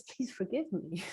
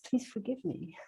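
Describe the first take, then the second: First: Much softer, pleading please forgive me; hushed heartfelt apology. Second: Much softer, pleading forgive me; hushed heartfelt apology; soft plea. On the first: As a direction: ask humbly, almost murmured. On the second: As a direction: say it gently as an apology. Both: Retold or imitated.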